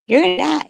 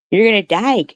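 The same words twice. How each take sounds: First: High, punched "gonna" in "You're gonna die."; emphatic repeat. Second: Said in the usual way. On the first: Real, not acted. Taunting her online haters, high emphatic repeat. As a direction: hit "You're gonna die." higher, mocking certainty. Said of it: "repeated higher". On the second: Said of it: "first take".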